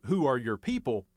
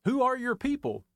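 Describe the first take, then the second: First: "Who" stressed, the rest low and even; low and matter-of-fact, weight on "Who"; low quoted question. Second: Pointed local challenge, "are" punched up high; emphatic question. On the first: Retold or imitated. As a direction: tip "Who" forward in "Who are your people?" and keep it low. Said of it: "It was her version of". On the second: Shown as a demonstration. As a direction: stress on "are", high and rising into it. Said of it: "just what in the dickens are you doing here anyhow".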